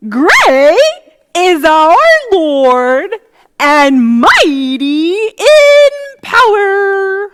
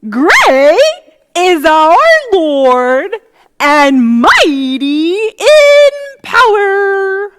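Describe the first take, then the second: First: It is said in a silly put-on voice. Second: The same.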